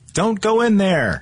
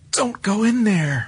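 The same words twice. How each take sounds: First: It is said in a plain, neutral way. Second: It is said in a frightened way.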